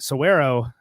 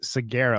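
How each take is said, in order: First: The g is not pronounced as a hard g. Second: The g is pronounced as a hard g. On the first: The speaker calls it right. "I realize I've been mispronouncing this my entire life" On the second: The speaker calls it wrong. "I thought it was Saguaro because the G"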